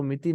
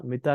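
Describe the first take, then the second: First: मिति ending in ee, the wrong way; wrong reading miti. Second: मिता ending in an open aa; correct mita. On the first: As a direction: read मिति with a final ई sound. (मिति, गलत उच्चारण) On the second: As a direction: say मिता, with a clear final आ. (मिता, सही उच्चारण आ के साथ) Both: Shown as a demonstration. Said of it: "इसको मिति नहीं पढ़ना".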